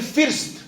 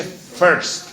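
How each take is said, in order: First: "first" with a Spanish-style i, like "feerst"; wrong pronunciation. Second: "first" drawn out slowly as "ferst"; corrected pronunciation. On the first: Learner insisting on their own way, wrong pronunciation. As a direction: say "first" with a clear ee vowel. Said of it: "yo quiero decir". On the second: Teacher firmly correcting the learner, corrected pronunciation. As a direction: stretch the e-like vowel in "first": "feerr" becomes "ferrst". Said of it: "No, señor, se dice". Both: Shown as a demonstration.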